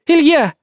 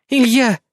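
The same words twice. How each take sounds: First: High, loud desperate plea; woman begging a raging drunk friend to stop; pleading cry. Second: Calling his name to soothe him; calm him down by name; woman gently calming a drunk friend; conciliatory. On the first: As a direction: beg him to stop, louder. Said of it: "взмолилась Светлана". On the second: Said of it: "примирительно сказала она". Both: A narrator's reading.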